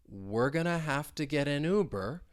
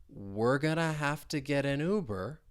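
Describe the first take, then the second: No difference in how they are said.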